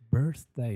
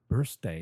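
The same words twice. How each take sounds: First: The middle sound is a th sound. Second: The middle sound is an s sound. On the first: The speaker calls it right. "it's birthday" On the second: The speaker calls it wrong. "not birthday. You know, and they're not bursting"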